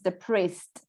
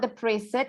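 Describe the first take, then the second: First: The ending joins the last syllable, no extra syllable. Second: The ending is said as an extra syllable. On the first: The speaker calls it right. "it's depressed. ... It's a silent E" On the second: The speaker calls it wrong. "So it's not depressed"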